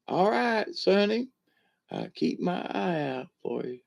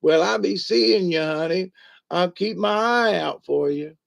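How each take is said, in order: First: High granny start, dropping softer on the punchline. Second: High granny farewell, sly on the last line; high-pitched granny with a wink; old granny voice. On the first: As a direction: repeat the granny punchline, trailing off quieter. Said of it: "long story for a short little, um, punchline". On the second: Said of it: "she waves a little hand and she goes". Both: Retold or imitated.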